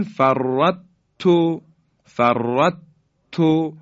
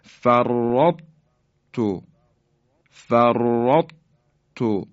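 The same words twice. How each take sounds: First: فرط تو said louder, the ط lost entirely into ت; فرط تو read as a plain doubled ت; wrong full merging. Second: فرطتو drawn out very slowly, heavy ط held then doubled ت; فرطتو as færːatto with the emphatic ط kept; correct partial merging. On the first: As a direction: show the mistake: فرط تو with no heaviness left. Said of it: "اگه بگیم". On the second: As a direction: recite فرطتو slowly, letting the ط's thickness linger. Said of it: "اینطور تلفظ کنیم". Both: Shown as a demonstration.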